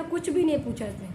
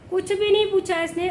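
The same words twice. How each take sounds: First: Said in the usual way. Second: High and loud on नहीं, stressing नहीं; exasperated wife repeating her complaint, louder; louder emphatic repeat. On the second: Real, not acted. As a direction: hit नहीं hard with indignation. Complaint repeated, second time louder.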